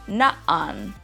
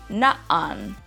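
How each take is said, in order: First: The word has an abrupt stop between vowels. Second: The word has an abrupt stop between vowels.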